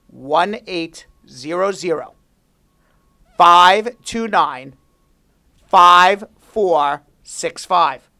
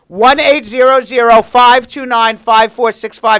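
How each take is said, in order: First: The number is said slowly. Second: The number is said fast.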